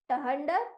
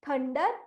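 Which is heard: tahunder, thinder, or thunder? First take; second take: tahunder; thunder. First: It starts with t followed by an h sound. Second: It starts with th and has an uh vowel. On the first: The speaker calls it wrong. "Option A" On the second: The speaker calls it right. "टी एच का उच्चारण है थ, यू की आवाज है अ"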